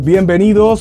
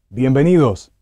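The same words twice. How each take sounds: First: It is said at normal, fuller volume. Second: It is said softly after a short pause.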